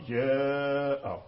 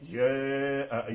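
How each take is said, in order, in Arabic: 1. الصائت الطويل يميل قليلا من الفتح نحو الكسر. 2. الصائت الطويل يميل قليلا من الفتح نحو الكسر.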